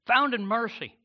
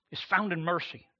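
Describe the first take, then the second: First: Found lifted high and said louder; stress on Found. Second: Said in the usual way. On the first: Shown as a demonstration. Pastor repeating his point to the congregation, stressing Found.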